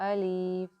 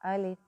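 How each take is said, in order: First: The vowel is stretched out too long. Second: The vowel is kept short, not stretched. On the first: The speaker calls it wrong. "इसको ज़्यादा खींच देते हैं" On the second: The speaker calls it right. "सही ये है"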